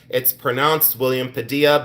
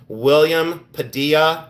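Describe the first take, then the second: First: Said in the usual way. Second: His own way of saying Padilla, pa-DEE-ya; slow careful name. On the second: Shown as a demonstration. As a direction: spell out William Padilla as pa-DEE-ya, unhurried. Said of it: "that's the way I say it".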